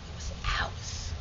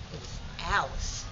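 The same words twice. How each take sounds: First: Whispered, soft and slow. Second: Said in the usual way. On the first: Shown as a demonstration. Claiming Dewey Avenue, whispered. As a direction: let "It was ours." fall to a breathless whisper. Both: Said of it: "Dewey Avenue was ours".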